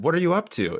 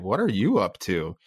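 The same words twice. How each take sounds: First: It is asked in a light, casual tone. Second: It is asked in a pointed, suspicious tone. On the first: It is a simple question about what someone is doing. "if you just said, what are you up to? It's just a very casual question" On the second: The speaker suspects they are doing something wrong. "But if you say, what are you up to? It definitely does"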